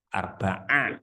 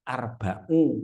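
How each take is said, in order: First: The word ends with an 'a' vowel. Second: The word ends with a 'u' vowel. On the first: The speaker calls it right. "arba'a asyrota" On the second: The speaker calls it wrong. "tidak boleh arba'u"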